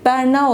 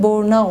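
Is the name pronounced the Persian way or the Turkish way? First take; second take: Turkish; Persian. First: The name is pronounced the Turkish way. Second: The name is pronounced the Persian way. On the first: This is how Turks say the name. "Türkçe'de Berna olarak telaffuz ediyorlar" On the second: This is how Iranians say the name. "Farsça'da aslında Borna olarak telaffuz ediliyor"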